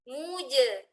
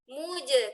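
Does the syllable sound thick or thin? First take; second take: thin; thin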